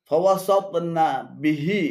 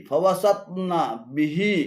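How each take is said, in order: Both takes have the same delivery.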